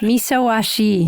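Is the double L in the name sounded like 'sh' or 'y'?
sh. The double L sounds like 'sh'. This is the Argentine way of saying it. "I grew up in Argentina, so I got the double L uh, sounding kind of a she uh, sound"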